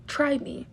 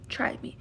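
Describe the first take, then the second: First: Said in the usual way. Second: Retold taunt to a harasser, whispered menace; menacing whisper. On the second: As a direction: breathe "try me" as a quiet dare. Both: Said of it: "And I was like".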